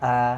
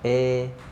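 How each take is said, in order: First: The vowel sounds thick, with the mouth opened wide. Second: The vowel sounds narrow, with the mouth barely opened. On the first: "kalau terlalu lebar membuka mulutnya nanti dia akan bunyinya tebal" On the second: "atau miring itu kurang de, membuka mulutnya"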